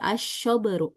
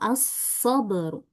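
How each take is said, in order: First: The consonant is a spread sh sound. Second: The consonant is a narrow hissing s sound. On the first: The speaker calls it wrong. "tapi malah dibaca tafasyi, asyoberu, salah" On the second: The speaker calls it right. "Yang betul as-soberu"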